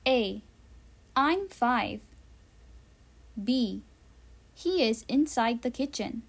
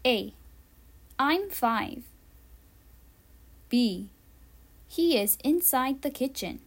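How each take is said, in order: Both takes have the same delivery.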